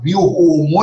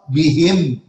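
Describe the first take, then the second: First: The final m carries a vowel into the next word. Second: The final m is silent, with a stop. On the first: The reading continues into the next word. "وتقطعت بهم الأسباب" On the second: The reader stops on this word. "أقف بهم"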